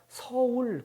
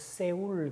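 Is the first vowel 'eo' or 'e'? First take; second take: eo; e. First: The first vowel is the Korean 'eo' sound. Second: The first vowel is an 'e' sound. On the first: "서울 그렇게 못합니다" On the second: "그래서 세울 그렇게 발음을 하죠"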